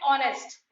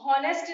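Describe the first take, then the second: First: The word begins with a vowel sound. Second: The word begins with an h sound. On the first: The speaker calls it right. "हम इसको पढ़ते हैं ऑनेस्ट" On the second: The speaker calls it wrong. "हम इसको हॉनेस्ट नहीं पढ़ते"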